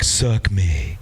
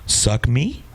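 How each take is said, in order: First: The voice falls at the end. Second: The voice rises at the end.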